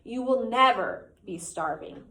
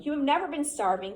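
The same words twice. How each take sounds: First: Slow, with "never" leaned on and a falling end; stress on never. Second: "never" pitched high and pushed hard; stress on never. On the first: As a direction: draw out "never", then let it fall. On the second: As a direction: lift the word "never" up high and hit it. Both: A narrator's reading. Quoted line from the novel.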